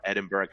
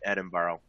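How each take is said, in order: First: Edinburgh pronounced the other way, offhand; alternative pronunciation of Edinburgh. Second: Edinburgh in the speaker's first-choice pronunciation; one pronunciation of Edinburgh. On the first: Presenter allowing for either saying, alternative pronunciation of Edinburgh. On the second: Presenter naming the Scottish city, first pronunciation of Edinburgh. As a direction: say Edinburgh the first of two accepted ways. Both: Shown as a demonstration. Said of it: "however you pronounce".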